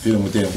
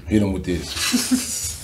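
First: Said in the usual way. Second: Laughing. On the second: Real, not acted. Laughs recalling dap up.

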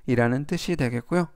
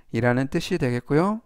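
Both takes have the same delivery.

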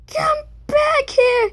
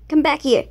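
First: High, drawn-out pleading shout; desperate high cry. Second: Said in the usual way. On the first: Real, not acted. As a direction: wail after it as it escapes. Chasing a cell in game.

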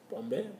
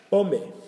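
First: Said in the usual way. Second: Called out high and loud; emphatic announcement. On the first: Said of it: "repeats word calmly". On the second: Shown as a demonstration. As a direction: announce Pombe, loud and high, to grab attention. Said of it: "teacher introduces new word".

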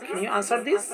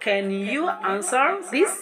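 First: Said in the usual way. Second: Very slow, each word stretched; slow model phrase. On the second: Shown as a demonstration. Teacher modelling a question slowly for class. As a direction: drag the question out.

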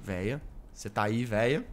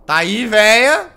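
First: Low, hushed whisper of a call. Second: Loud, slow taunting call; teasing call. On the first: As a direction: whisper the question from hiding. Hiding, calling softly. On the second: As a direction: call out to her, drawn out. Calling out to the nun. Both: Real, not acted.

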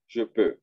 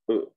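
First: Je peux with peux said with the small closed eu vowel; French eu in peux, lips rounded. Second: Peu with a small closed rounded eu vowel; French eu in Peu, not a Spanish o. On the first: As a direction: keep the little O in peux. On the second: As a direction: say Peu with the little O, lips tight and rounded. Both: Shown as a demonstration. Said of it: "y otra O más chiquita".

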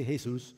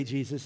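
First: "Jesus" said hay-SOOS; Spanish pronunciation. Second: "Jesus" said JEE-zus; English pronunciation. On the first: Preacher contrasting languages for the congregation, Spanish pronunciation. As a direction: say "Jesus" with an H sound, stressed on the end. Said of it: "in Spanish we say". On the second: Preacher contrasting languages for the congregation, English pronunciation. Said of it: "in English we say". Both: Shown as a demonstration.

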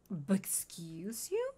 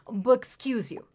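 First: Whispered "But excuse you?" slowly, rising on "you"; slow hushed whisper of "But excuse you?"; offended whisper. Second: Said in the usual way. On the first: Acted. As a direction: breathe "But excuse you?" as a slow, voiceless, indignant question. Offended reply to Oscar.

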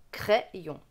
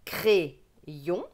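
First: "crayon" with open è, crè-yon; Bocher method pronunciation. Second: "crayon" with closed é, cré-yon; slow "crayon", split into cré and yon; regional pronunciation. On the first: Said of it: "prôné par Beauchère". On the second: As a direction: regional French "crayon", first vowel like é. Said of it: "avec l'accent de ma région". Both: Shown as a demonstration.

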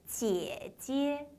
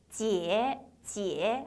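First: 姐姐 with a long first syllable and a light second attached; neutral tone, joined on. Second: 姐, 姐 as two separate full-tone syllables; wrong repeated full tone. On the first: Teacher showing neutral tone, 姐姐 joined with a light ending. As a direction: stretch the first 姐, let the second follow naturally. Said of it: "뒤에는 자연스럽게 붙죠". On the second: Teacher showing the mistake, 姐, 姐 both in full tone. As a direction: give the second 姐 the same full contour as the first 姐. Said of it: "아니고 姐姐". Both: Shown as a demonstration.

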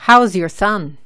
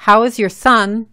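First: "How's" said as one syllable ending in z; louder model line with "How is" squeezed into "How's"; natural contraction. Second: "How is" said as two separate words; louder, careful "How is", without contracting it; full uncontracted form. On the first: Teacher shows the more natural question, "How's" contracted. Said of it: "se dice". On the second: Teacher gives the form to replace, "How is" in full. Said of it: "en vez de". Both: Shown as a demonstration.

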